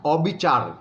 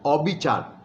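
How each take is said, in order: No difference in how they are said.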